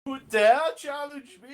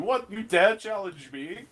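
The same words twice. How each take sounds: First: Much higher, louder, far-off AI voice; booming echoing villain monologue. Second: A raised, mocking AI challenge; booming echoing villain monologue. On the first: Acted. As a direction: boom it out like a wrathful ship AI. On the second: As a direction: sneer it like an offended ship AI. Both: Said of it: "you hear Phoenix, like".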